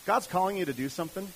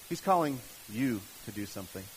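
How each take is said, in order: First: Said in the usual way. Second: "you" set apart by pauses, line pitched lower; single out "you" with a pause either side; lower, deliberate emphasis on "you"; stress on YOU. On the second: Real, not acted. Repeats it, singling out the listener.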